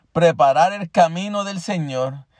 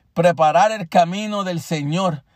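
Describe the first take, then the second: Both takes have the same delivery.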